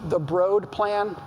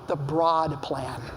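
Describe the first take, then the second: First: Broad is not said like the adjective broad. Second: Broad is said like the adjective broad. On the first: The speaker calls it wrong. "It should not be" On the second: The speaker calls it right. "As in a broad investment"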